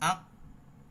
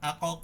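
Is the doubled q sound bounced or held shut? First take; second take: held; bounced. First: The q sound is held shut without release. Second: The q sound is released with an echoing bounce. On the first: The speaker calls it right. "Sound কিন্তু আটকায় দিতে হবে ওই হামজার মতো করে" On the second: The speaker calls it wrong. "আ ক ক আমরা পড়তে পারবো না"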